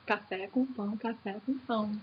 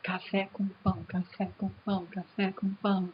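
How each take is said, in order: First: Soft, fading rhythmic chant; chanted, let the train roll away quietly. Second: Soft, rhythmic chant like a train; chanted, chug the words softly like a train. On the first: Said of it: "interrupção que acontece periodicamente". (chanted, cantarolado bem baixinho, sumindo) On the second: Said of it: "associação do verso com o barulhinho do trem". (chanted, cantarolado suave imitando o trem) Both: Shown as a demonstration.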